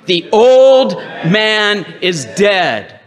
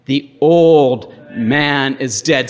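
First: Chanted, loud, high, slow rallying cry; chanted, drive it home with passion, stretching each word; chanted, impassioned preacher leading the crowd; passionate chant. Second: Chanted, slow, emphatic congregational call; chanted, lead them in saying it, drawing out the words; chanted, measured, slow call to repeat. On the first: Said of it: "With a little more passion". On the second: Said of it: "Say it with me". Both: Shown as a demonstration.

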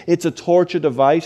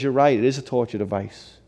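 First: Imitated indignant complaint; a touch of acted outrage, said as an accusation; offended man, retold. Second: Imitated pastor's subdued, measured concession; pastor calmly agreeing. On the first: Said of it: "was so offended at the church". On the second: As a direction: concede it calmly, without any outrage. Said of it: "He says".

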